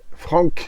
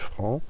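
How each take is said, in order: First: The final c sound is pronounced. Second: The final c sound is silent. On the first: The speaker calls it wrong. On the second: The speaker calls it right.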